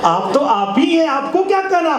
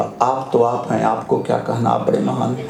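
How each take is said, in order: First: High-pitched, emphatic showy flattery; emphatic mock deference. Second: Bow out meekly, pitched well down; acted meek flattery to a donkey; humble mock deference. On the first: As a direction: lift the pitch sharply to placate someone. Repeats the line as emphatic advice. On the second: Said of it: "दोनों हाथ जोड़ के बोला".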